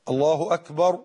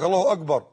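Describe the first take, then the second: First: «الله أكبر» with a clean unvoiced k; correct kaf. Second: «الله أكبر» with a hard g for the k: «أجبر»; kaf as gim. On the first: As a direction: say the k of «أكبر» as k, never g. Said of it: "أمال الصح إيه؟". («أكبر» بكاف صحيحة لا جيم) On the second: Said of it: "وبعض الناس ينطقون الكاف جيم". («أكبر» بنطق الكاف جيمًا) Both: Shown as a demonstration.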